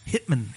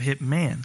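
First: The last syllable is clipped short. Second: The last syllable is drawn out long. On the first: "sometimes you shorten the last syllable" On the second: "instead of lengthen the last syllable"

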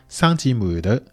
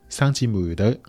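No difference in how they are said.

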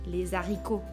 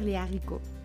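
First: A z sound links les to haricots. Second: No z sound links les to haricots. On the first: The speaker calls it wrong. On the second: The speaker calls it right.

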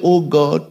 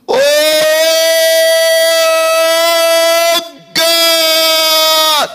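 First: It is said in a plain, quiet voice. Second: It is shouted loudly and dramatically.

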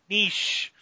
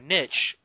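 First: The word is said in a non-American way. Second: The word is said the American way.

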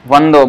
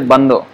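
First: The word starts with a v sound. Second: The word starts with a b sound. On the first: This follows the Sanskrit-style reading. "like you know in Sanskrit vande. So vando" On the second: This follows the Bengali reading. "but in Bengali they say bando"

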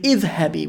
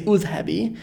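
First: The word begins with an 'i' vowel. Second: The word begins with a 'u' vowel. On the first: The speaker calls it right. "We say idhabi" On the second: The speaker calls it wrong. "we don't say udhabi"

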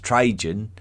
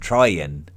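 First: The middle consonant is an English J sound. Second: The middle consonant is a Y sound. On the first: This is the English form of the name. The speaker calls it wrong. "Trajan is certainly a very anglicised version" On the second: This is closer to the original Latin form. The speaker calls it right. "what we should probably be calling him"

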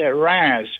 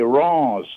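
First: The name is pronounced the English way. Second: The name is pronounced the French way. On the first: The speaker calls it wrong. "I said Reims" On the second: The speaker calls it right. "It's actually Reims. That's how they pronounce it"

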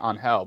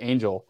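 First: The name is pronounced the Spanish way. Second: The name is pronounced the English way. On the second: "if he's just Angel"

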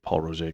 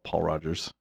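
First: The name gets a French-style pronunciation. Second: The name gets an anglicized pronunciation. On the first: The speaker calls it right. "I'm glad that you say Paul Roget" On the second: The speaker calls it wrong. "most people call it Paul Rogers and it bugs the shit out of me"

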